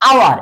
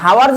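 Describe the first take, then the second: First: The word starts with a vowel, no h sound. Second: The word starts with an audible h sound. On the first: The speaker calls it right. "আওয়ার এটা কিন্তু" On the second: The speaker calls it wrong. "হাওয়ার বলতেছো না"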